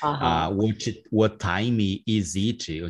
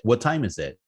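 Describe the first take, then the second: First: It is spoken with a heavy Portuguese accent. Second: It is spoken with a lighter, more English accent. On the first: This is how the speaker used to sound. "That would be my pronunciation, very, very Portuguese way" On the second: This is how the speaker sounds today. "now it's"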